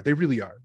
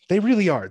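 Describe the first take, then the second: First: Said in the usual way. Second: REALLY punched high and loud; stress on really. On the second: Shown as a demonstration. Agreeing with friend, really said high and loud. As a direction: hit the word really hard.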